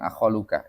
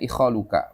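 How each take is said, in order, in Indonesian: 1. Kata ini dimulai dengan vokal 'a'. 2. Kata ini dimulai dengan vokal 'i'. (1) "bukan akhaluka" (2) "Dibacanya ikhaluka"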